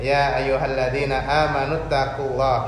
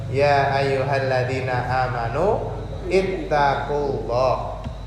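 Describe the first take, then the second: First: The last word is joined on without a pause. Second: There is a break before the last word. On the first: "nek di wasolkan, disambung" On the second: "kalau dipedhot"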